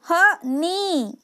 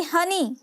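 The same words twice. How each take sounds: First: हनी split into "ha" and a long "nee"; very slow, syllable by syllable "ha... neee"; sounded out slowly. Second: Said in the usual way. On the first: Shown as a demonstration. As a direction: break हनी in two and hold the final ee. Same word sounded out by syllables.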